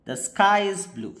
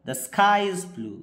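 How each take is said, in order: The two takes are said the same way.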